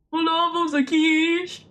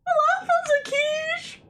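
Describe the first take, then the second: First: Said in the usual way. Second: Put-on high, squeaky girlish voice with a rising end; cutesy girl voice. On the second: Practising a girl voice on stream, high and squeaky. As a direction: chirp it like a tiny cartoon girl. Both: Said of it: "I'm just doing it wrong".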